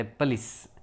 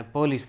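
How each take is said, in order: First: પલિસ as "puh-LIS"; correct pronunciation. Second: પોલીસ as "PO-lees"; common local pronunciation. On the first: Teacher correcting learners, correct pronunciation. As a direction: say પલિસ with a weak first vowel. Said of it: "પણ એનો ઉચ્ચાર થાય". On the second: Teacher showing how we say it, common pronunciation. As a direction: say પોલીસ with a full o. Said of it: "આપણે પોલીસ બોલીએ". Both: Shown as a demonstration.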